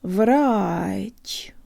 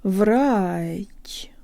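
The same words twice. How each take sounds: First: The final consonant is soft, with a rise. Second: The final consonant is soft, with a rise.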